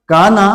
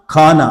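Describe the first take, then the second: First: काना with a clean k; unaspirated kana. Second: खाना with a heavy breathy kh; aspirated khana. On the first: Teacher contrasts plain काना. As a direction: keep काना crisp without breath. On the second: Teacher contrasts aspirated खाना. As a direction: push air on खाना. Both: Shown as a demonstration. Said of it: "आवाज़ में भी फ़र्क आया".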